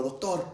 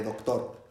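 First: Higher, harder call of the name; louder mock yell. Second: A yell kept small to spare the throat; held-back mock yell. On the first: Student yells to wake the snoring teacher, louder mock yell. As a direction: call out to wake him, a bit stronger. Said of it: "me aventé otro grito, más fuerte". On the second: Student calls the sleeping teacher, a small mock yell. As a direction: call out without really yelling. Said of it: "no voy a gritar porque mi garganta no está para gritar".

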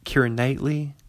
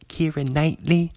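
First: Said in the usual way. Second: A hint of put-on British; lightly mock-English, a little higher; British accent. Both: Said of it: "trying to do my British accent".

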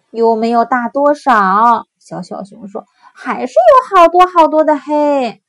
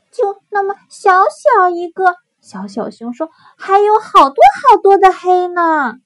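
First: Loud, insistent cub; a small cub still protesting; little bear voice. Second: High, loud complaining cub; a small cub protesting; little bear voice. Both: Acted.

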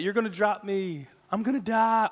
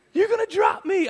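First: Milder mock-panicked kid; imitated freaking out. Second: Very high, loud mock-terrified kid; imitated panicked scream. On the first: Stuck boy telling dad he'll fall, mild mock panic. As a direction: wail it a little, recalling a child's fright. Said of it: "I'm freaking out". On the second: Seven-year-old stuck in a tree to dad, mock panicked shriek. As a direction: shriek it as a hammed-up frightened child. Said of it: "I'm screaming".

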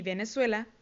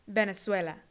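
First: Said in the usual way. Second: "Venezuela" said the English way, in careful syllables; English pronunciation. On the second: Shown as a demonstration. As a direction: model "Venezuela" for learners, falling. ("Venezuela" pronunciado en inglés, con cuidado) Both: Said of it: "se dice Venezuela".

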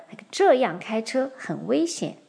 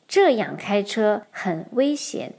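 First: 这样 said slowly and stressed; slower on 这样. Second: Said in the usual way. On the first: Shown as a demonstration. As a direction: lean on 这样, a little slower. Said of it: "we normally read it a little slower". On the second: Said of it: "we normally emphasize the word 这样".

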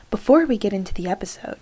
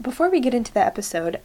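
First: Said in the usual way. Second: Fast recorded-message read; automated message voice. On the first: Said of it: "I did not". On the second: Real, not acted. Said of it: "I sounded like a automated message".

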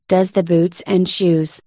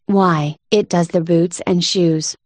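First: Slow, mildly puzzled echo; wondering. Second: Understated solemn statement. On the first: Puzzled Alice echoes the Griffin, in a wondering tone. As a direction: repeat it slowly, lightly wondering. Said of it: "she repeated in a wondering tone". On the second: The Griffin explains the whiting's name to Alice, solemnly. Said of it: "the Griffin replied very solemnly". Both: A narrator's reading.

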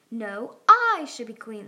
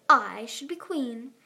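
First: Counter-claim leaning hard on the word "I"; insistent stress on I. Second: Slow, loud "I should be queen"; dramatic claim. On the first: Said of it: "Tsunami insisted". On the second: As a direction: claim the throne with drawn-out drama. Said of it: "Glory cried". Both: A narrator's reading.

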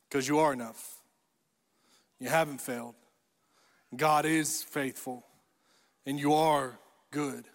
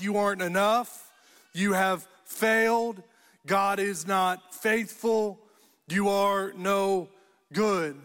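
First: Calm, sincere and low; gentle reassurance. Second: Deliberate, emphatic accusations; firm mock condemnation; shouted negativities, understated. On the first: Real, not acted. Reassuring answer to the negative voices. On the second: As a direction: press each verdict home, pausing between phrases. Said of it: "being shouted at us".

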